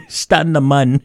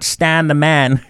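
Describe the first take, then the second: First: "Stun" and "mun" with an uh vowel; playful corrected pronunciation. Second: "Stan" and "man" with a short a; wrong pronunciation. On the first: Teacher joking on the correction, uh in Stun and mun. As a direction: turn man into "mun" to rhyme with Stun. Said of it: "but it's pronounced stun". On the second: Teacher joking about the misreading, short a in Stan and man. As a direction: rhyme Stan with man, as in the name. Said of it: "Not Stan the man". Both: Shown as a demonstration.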